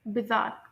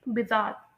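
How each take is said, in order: Both takes have the same delivery.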